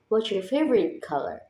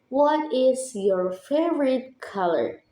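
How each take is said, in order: First: The opening words blend into one another. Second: Each opening word is said fully and separately.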